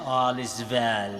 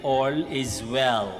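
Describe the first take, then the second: First: Indian-English lilt on "All is well", the w turned to v as "vel"; Bombay accent. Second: Said in the usual way. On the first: Retold or imitated. Priest quoting the Three Idiots catchphrase in a Bombay accent. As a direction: quote the film's catchphrase like its Bombay characters. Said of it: "kaya ganun yung intonation". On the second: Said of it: "But actually, ibig sabihin ay".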